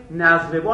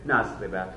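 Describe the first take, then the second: First: نضربو ending in a clear "-u"; teacher's model نضربو, "nazribu"; nominative ending. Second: نضرب ending in a clear "-a"; low, softer نضرب, closing on "a"; teacher's model نضرب, "nazriba"; accusative ending. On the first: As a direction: close نضربو on an "oo" vowel. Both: Shown as a demonstration.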